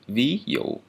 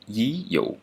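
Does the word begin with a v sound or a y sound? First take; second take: v sound; y sound. First: The first word begins with a v sound. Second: The first word begins with a y sound. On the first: This is the standard pronunciation. "the labial dental sound" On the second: This is the southern dialect pronunciation. "if I'm in the south, I would pronounce this one like"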